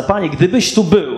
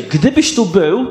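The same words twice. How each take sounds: First: Said in the usual way. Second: "gdybyś tu był" slowed, leaning on "tu" with a rising end; slow stress on tu. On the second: Shown as a demonstration. Preacher dwelling on Martha's faith, slow stress on "tu". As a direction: linger on "tu", let it lift as if in faith. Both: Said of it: "ona jakby w tym miejscu wierzy".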